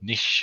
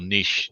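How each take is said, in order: First: It is said with the American pronunciation. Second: It is said without the American pronunciation.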